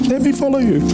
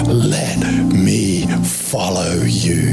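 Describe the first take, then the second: First: It is said in a normal speaking voice. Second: It is said in a deep, demonic-sounding voice. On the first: The speaker calls it right. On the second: The speaker calls it wrong.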